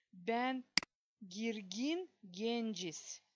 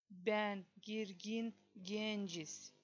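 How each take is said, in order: Both takes have the same delivery.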